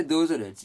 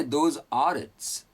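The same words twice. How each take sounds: First: "Those are its" run together smoothly; natural linked. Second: Each word said slowly and separately, "Those are its"; slow careful. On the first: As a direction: say "Those are its" in one easy flow. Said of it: "you sound more natural". (सहज, जुड़े हुए शब्द) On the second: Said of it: "Good English". (धीरे-धीरे, हर शब्द अलग) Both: Shown as a demonstration.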